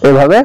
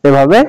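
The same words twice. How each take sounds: The two takes are said the same way.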